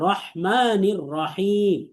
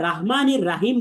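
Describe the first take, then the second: First: A heavy r and an h from the throat. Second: The r and h sounds are light and plain. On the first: The speaker calls it right. "র বলবো মোটা করে, এবং হাটাকে উচ্চারণ করবো, অর্থাৎ গলার মাঝখান থেকে" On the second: The speaker calls it wrong. "আমরা এখানে রাহমানির রাহিম বলবো না"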